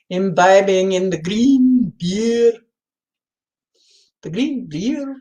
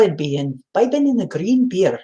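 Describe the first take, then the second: First: Put-on "green beer" in a clumsy, slow Irish accent; a first, poor stab at an Irish lilt on "green beer"; slowly drawn-out mock-Irish "in the green beer"; bad Irish accent. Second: "imbibing in the green beer" in a somewhat better mock-Irish accent; second, improved Irish accent on "imbibing in the green beer". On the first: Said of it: "That's a horrible, no, that isn't a, act, the right accent". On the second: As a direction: try the Irish lilt again, a bit closer. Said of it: "That's a little better".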